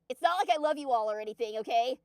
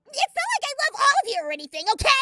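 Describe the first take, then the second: First: It is said in the speaker's natural voice. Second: It is said in a put-on character voice.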